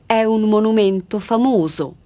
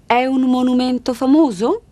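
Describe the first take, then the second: First: The voice falls at the end. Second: The voice rises at the end.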